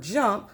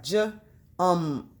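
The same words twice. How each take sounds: First: Said in the usual way. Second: "j" as juh, pause, then "ump"; broken into sounds. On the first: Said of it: "so for his word jump". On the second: Shown as a demonstration. Teacher tapping out her preschooler's word, "j, ump" sound by sound. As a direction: sound out "j, ump" in separate pieces. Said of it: "break them up into sounds".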